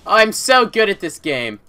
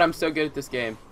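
First: Louder, slower, stress on so; emphatic boast. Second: Said in the usual way. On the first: Real, not acted. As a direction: boast it proudly and slowly.

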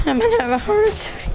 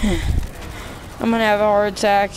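First: "I'm gonna have a heart attack" squeaked high and rushed; high fast squeal. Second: Said in the usual way. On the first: Real, not acted.

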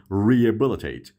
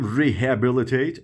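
First: Rehabilitate said slowly as "ree-e-bilitate"; H dropped. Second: Rehabilitate with an audible H, "ree-HA-bilitate"; H pronounced. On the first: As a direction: model Rehabilitate slowly with a silent H. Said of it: "یعنی اچ تلفظ نمیشه". (تلفظ آهستهٔ Rehabilitate بدون صدای «ه») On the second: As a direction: sound the H in rehabilitate, as a question. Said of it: "اصلاً اش تلفظ نمیشه". (تلفظ rehabilitate با صدای «ه») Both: Shown as a demonstration.

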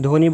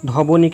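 First: ধ্বনি said as dhoni, the ব not sounded; silent ব-ফলা. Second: ধবনি said as dhoboni, with the b sounded; ধবনি with a full bo in the middle. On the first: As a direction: say ধ্বনি in two syllables, dho-ni. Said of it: "ধবনি কিন্তু বলছি না". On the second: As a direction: break ধবনি into three syllables, dho-bo-ni. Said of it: "কিন্তু বলছি না". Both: Shown as a demonstration.

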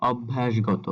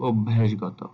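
First: "অভ্যাসগত" with open অ first; ভুল উচ্চারণ. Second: "অভ্যাসগত" with closed ও first; সঠিক উচ্চারণ. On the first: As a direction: begin "অভ্যাসগত" on aw, not o. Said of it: "এটা অ হবে না". ("অভ্যাসগত"-র শুরুতে খোলা অ) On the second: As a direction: begin "অভ্যাসগত" on a rounded o. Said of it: "এটা হবে". ("অভ্যাসগত"-র শুরুতে ও ধ্বনি) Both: Shown as a demonstration.

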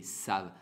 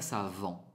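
First: Savent said as sav, with the final N and T left silent; correct French savent. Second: Savant read letter by letter, with the nasal ant ending sounded; wrong spelling pronunciation. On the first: Teacher showing Spanish speakers that savent ends in a plain sav. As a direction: give savent its French ending: sav, with nothing after the v. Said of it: "No suenan la N ni la T". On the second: Teacher showing the mistaken reading of savent with a sounded ending. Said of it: "pero no, es la manera de conjugar". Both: Shown as a demonstration.

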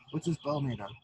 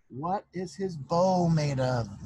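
First: Said in the usual way. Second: "what is his bow made of?" dragged out slowly, each word weighted; slow pointed question. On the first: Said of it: "like a bow and arrow?". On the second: Acted. Sister testing the proud girls, slow and pointed. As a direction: spell out "bow" slowly as a test. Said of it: "she said quietly".

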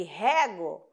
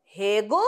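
First: "rego" with an open e, said HEH-go with an open è; "rego" with an open e sound; verb rego. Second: "Rego" with a closed e, said HEH-go; "Rego" with a closed e sound; noun rego. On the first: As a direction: say "rego" with an open é, as in watering the plants. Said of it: "eu rego as plantas". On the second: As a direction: say "Rego" with the closed ê, as in the word for ditch. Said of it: "o E é fechado". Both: Shown as a demonstration.

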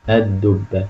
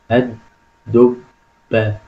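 First: Said in the usual way. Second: الدبة split into separate syllables, pausing between each; sounding out parts. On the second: Shown as a demonstration. Teacher reads out the analysed word, slow separated syllables. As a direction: break الدبة up piece by piece, very slowly. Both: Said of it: "لاحظ هنا يا أستاذ الدبة".

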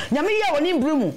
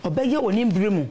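First: Pitched high, proclaiming that God acts in His time; joyful church testimony, voice raised high; exclaimed. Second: Said in the usual way. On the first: Real, not acted. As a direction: lift it up like a praise shout. Testimony refrain, proclaimed response.

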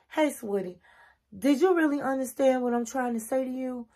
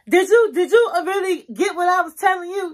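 First: Gentle, respectful check-in, slightly softer; no attitude. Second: High, loud, disrespectful challenge; sarcastic attitude. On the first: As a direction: ask sweetly, without any sarcasm. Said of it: "say it in a way there's no sarcasm, there's no attitude". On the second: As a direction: demand it with mocking attitude, pitched way up. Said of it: "You don't wanna talk like that". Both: Shown as a demonstration.

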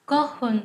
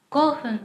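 No difference in how they are said.

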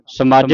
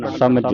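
First: ਸਮਝ with a long second vowel, samaajh; wrong reading demo. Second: ਸਮਝ with a short second vowel, samajh; correct reading demo. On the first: Teacher shows students the reading to avoid, ਸਮਝ said as samaajh. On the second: Teacher models the right reading for students, ਸਮਝ with short vowels. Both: Shown as a demonstration. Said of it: "ਸਮਝ ਨਹੀਂ ਪੜਨਾ".

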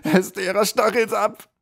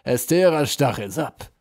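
First: High, loud anguished cry; desperate scream. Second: Triumphant. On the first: Tortured troll screams out the witch's name in panic. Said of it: "schrie der Troll in höchster Not". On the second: General savours his captive's confession, triumphant. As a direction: crow over the extracted name. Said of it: "rief der General triumphierend". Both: A narrator's reading.

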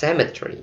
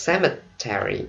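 First: "cemetery" in three syllables, CEM-e-try; clipped British "cemetery" dropping the middle vowel; British pronunciation. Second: "cemetery" in four syllables, ending like Terry; full four-syllable American "cemetery"; American pronunciation. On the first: Teacher contrasting the two accents, British "cemetery" in three syllables. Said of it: "cemetery or". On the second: Teacher contrasting the two accents, American "cemetery" in four syllables. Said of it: "or cemetery". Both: Shown as a demonstration.

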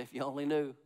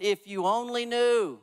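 First: Said in the usual way. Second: Louder and higher, slow, every word leaned on; proclaimed. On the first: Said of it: "Look at somebody, say". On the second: Acted. Preacher proclaiming Jesus' line to the congregation, slow and loud. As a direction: preach "If you only knew" slowly with full force.

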